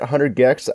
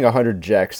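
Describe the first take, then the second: First: The name starts with a hard g sound. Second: The name starts with a j sound. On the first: The speaker calls it right. "is that how you say it?" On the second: The speaker calls it wrong. "I was saying 100 Jex at the show, but that's obviously wrong"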